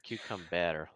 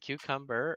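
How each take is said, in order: First: It is said with a French-sounding pronunciation. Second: It is said with a plain English pronunciation.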